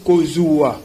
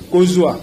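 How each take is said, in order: First: "Kozua" very slow, ko-zu-a; syllable-by-syllable pronunciation. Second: Said in the usual way. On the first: Shown as a demonstration. Teacher demonstrating Lingala spelling, "Kozua" drawn out by syllable. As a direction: stretch "Kozua" out into separate syllables. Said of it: "nous prononçons Kozua". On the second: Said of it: "c'est Kozua".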